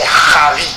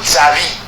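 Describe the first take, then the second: First: The name begins with a sound other than z. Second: The name begins with a plain z sound. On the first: The speaker calls it right. "alors que c'est Javi" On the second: The speaker calls it wrong. "on dit Zavi ou Zavi"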